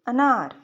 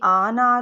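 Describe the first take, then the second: First: The first vowel is short. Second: The first vowel is long. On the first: "अलिफ ऐसा है जिसको हमने एकदम से बोलना है" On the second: "अगर यहाँ पे अलिफ मदा होता तो ये आनार होता"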